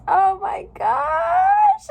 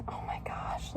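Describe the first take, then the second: First: Much higher, much louder and slow, near tears; an overwhelmed squeal of real joy; ecstatic shriek. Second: Soft, whispered in wonder; awed whisper. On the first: First look at new tattoo. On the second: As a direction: breathe it out, amazed. Admiring tattoo close up. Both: Real, not acted.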